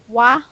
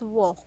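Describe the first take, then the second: First: The vowel is an open 'ah' sound. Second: The vowel is a rounded 'aw' sound. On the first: The speaker calls it wrong. "I know that the spelling is A. This is wa" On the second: The speaker calls it right. "but the way you read it is wo"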